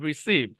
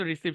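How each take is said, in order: First: receive with SEEV drawn out and falling; stress on second syllable. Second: Said in the usual way. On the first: Shown as a demonstration. Teacher correcting a childhood habit, receive stressed on SEEV. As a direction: lean long on SEEV in receive. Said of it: "এখানে স্ট্রেসটা যাবে". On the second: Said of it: "ছোটবেলায় pronounce হয়তো receive শিখছি".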